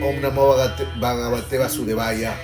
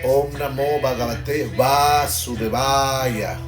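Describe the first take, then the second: First: The final a vowel is short. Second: The final a vowel is long and stressed. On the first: The speaker calls it wrong. "no pronuncian bien" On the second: The speaker calls it right. "siempre hay que acentuar las dos As"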